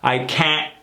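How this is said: The vowel is pushed up into the nose. The speaker calls it right. "really reaching for it, sticking it into the nose"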